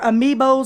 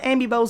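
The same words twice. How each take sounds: First: It is said the widely used way. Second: It is said with a Southern pronunciation. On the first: This is how most people say it. "as people call them" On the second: This is how it is said in the South. "We call them amiibos in the South"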